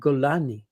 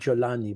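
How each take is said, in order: First: The name begins with a hard G sound. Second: The name begins with a soft J sound. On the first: "the way it's pronounced in the region" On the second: "this is the Arabic uh, pronunciation of his name"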